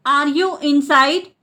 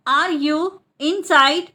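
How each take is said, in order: First: Said in the usual way. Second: Split repeat. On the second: Shown as a demonstration. Teacher repeats the question for learners, split in two. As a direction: pause between "Are you" and "inside".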